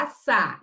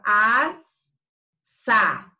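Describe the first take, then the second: First: Said in the usual way. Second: "assar" broken into a long "as", pause, "sar"; split syllables, wrong way. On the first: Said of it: "a gente fala assar". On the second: Shown as a demonstration. Teacher showing how nobody says assar, exaggerated split. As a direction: overdo "assar" as two drawn-out chunks, "asss... sar". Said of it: "a gente não fala assar".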